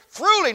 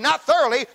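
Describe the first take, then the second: First: The word begins with the sound 'through'. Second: The word begins with the sound 'thor'. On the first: Being furnished from the inside. The speaker calls it right. "It's T-H-R-O" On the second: Being merely equipped. The speaker calls it wrong. "not T-H-O-R"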